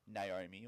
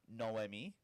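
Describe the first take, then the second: First: The name begins with a 'nay' sound. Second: The name begins with a 'no' sound. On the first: The speaker calls it wrong. "actually did pronounce it no, no, um, Naomi" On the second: The speaker calls it right. "but it is Noemi"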